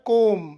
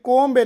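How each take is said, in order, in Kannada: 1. ಕೊನೆಯಲ್ಲಿ ಬಿ ಶಬ್ದ ಕೇಳಿಸುವುದಿಲ್ಲ. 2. ಕೊನೆಯಲ್ಲಿ ಬಿ ಶಬ್ದ ಕೇಳಿಸುತ್ತದೆ. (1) "ಇದರ ಉಚ್ಚಾರ ಕೋಮ್" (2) "ಇಲ್ಲಿ ಕೋಂಬ್ ಎನ್ನಬಾರದು"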